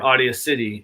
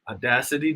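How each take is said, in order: First: It is said as two words, audio city. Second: It is said as the single word audacity. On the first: The speaker calls it wrong. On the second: The speaker calls it right.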